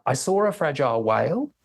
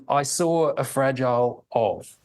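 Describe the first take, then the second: First: Said in the usual way. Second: "I saw a fragile of" read slowly, word by word, each falling; staccato falling tone. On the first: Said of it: "will be read with a normal sentence intonation". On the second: Shown as a demonstration. Lecturer demonstrating a staccato reading of the ungrammatical sentence. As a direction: break it into separate falling words. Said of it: "read in the same staccato fashion".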